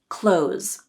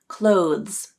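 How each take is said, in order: First: The TH sound is left out entirely. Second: A voiced TH sound is heard before the Z. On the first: "drop the T H sound" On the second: "The harder pronunciation includes the voiced T H sound"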